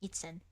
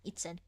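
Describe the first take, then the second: The two takes are said the same way.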